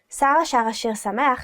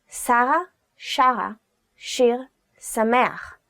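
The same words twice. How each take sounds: First: The phrase is spoken at a fast pace. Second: The phrase is spoken at a slow pace. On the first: "I'll say it fast" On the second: "this time I'll do it slowly"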